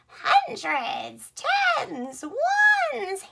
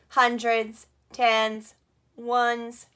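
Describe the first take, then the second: First: The words are spoken in a cackling witch voice. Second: The words are spoken in a flat robot voice. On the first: "Let's do a witchy voice today" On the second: "Let's be a robot. Can you do a robot voice?"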